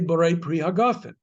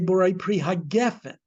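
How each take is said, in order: First: The vowel after the g sounds like 'ah'. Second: The vowel after the g sounds like 'eh'. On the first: The word takes its end-of-verse form. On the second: The word keeps its standalone form.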